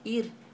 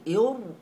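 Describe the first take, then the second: First: The r is pronounced light and thin. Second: The r is pronounced heavy and thick. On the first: The speaker calls it right. "maka kita baca dengan nipis" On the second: The speaker calls it wrong. "Tak boleh ir, tebal"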